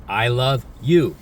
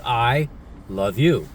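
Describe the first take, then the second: First: Changed emotion. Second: Slow tender I love you. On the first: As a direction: say it again, but with a changed feeling. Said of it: "I just changed the emotion". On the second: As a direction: say it slow and gentle, like you mean it. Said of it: "many ways of saying those three words". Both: Shown as a demonstration.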